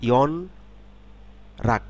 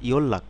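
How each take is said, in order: First: An n sound is followed by an r sound. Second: A long double l sound joins the syllables. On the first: "আলাদাভাবে ব- আমরা পড়ি" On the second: "শব্দে যখন পড়ব তখন হবে ইয়ল্লাক"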